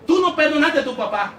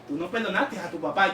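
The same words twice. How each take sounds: First: It is said at a higher pitch. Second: It is said at a lower pitch.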